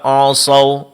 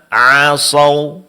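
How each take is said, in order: First: The ain sounds thick and heavy. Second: The ain sounds thin and light. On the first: The speaker calls it wrong. "Sering dibaca" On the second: The speaker calls it right. "Yang benar ... di sini ain ditipiskan"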